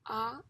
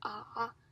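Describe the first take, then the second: First: It is said with the second tone. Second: It is said with the third tone. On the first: "the second tongue" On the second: "the third tongue"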